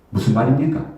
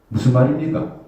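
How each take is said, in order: Both takes have the same delivery.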